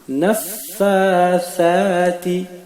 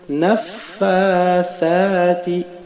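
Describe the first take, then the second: Both takes have the same delivery.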